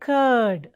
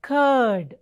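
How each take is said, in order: Both takes have the same delivery.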